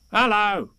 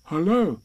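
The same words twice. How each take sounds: First: High creature voice, falling hello; strange animal. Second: Higher-pitched Pooh greeting. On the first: Animal returns Pooh's greeting, high odd hello. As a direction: echo it back as an odd animal. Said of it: "said the strange animal". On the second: Pooh greets the unseen animal, higher falling hello. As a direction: answer politely in Pooh's voice. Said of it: "said Pooh". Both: A narrator's reading.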